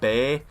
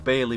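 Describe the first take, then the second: First: The name is said with one syllable. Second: The name is said with two syllables. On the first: This is how it is said in real life. "I do believe it is pronounced like Bay" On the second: This is how it reads when spelled out. "I don't know if his last name is pronounced Bailey"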